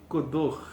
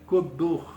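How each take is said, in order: No difference in how they are said.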